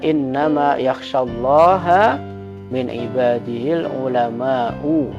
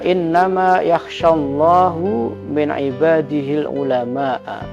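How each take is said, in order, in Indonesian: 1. Allah berakhiran -ha, ulama berakhiran -u. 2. Allah berakhiran -hu, ulama berakhiran -a. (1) "Kalau kita biasanya membaca" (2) "bi raf'i lafdil jalalah, wa nasbil ulama"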